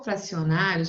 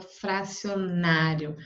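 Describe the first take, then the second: First: Said in the usual way. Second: FRACIONÁRIO measured, leaning on NÁ; stress on NA. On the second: Shown as a demonstration. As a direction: sound out fracionário with a long NÁ. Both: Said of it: "o na é a sílaba tônica".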